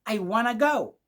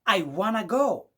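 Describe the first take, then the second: First: Want to is blended into one word, wanna. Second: Want to is blended into one word, wanna.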